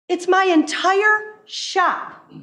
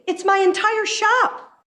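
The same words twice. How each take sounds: First: Very slow, leaning hard on my in "It's my entire shop"; slow emphasis on my. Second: Higher, incredulous exclamation with a weight on shop; exasperated. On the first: Repeating it to the legislator slowly, stressing my. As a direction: drag it out, pressing the word my. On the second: Telling the legislator the whole shop is the issue, higher, exasperated. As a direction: throw up your hands in disbelief. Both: Retold or imitated. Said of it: "I said".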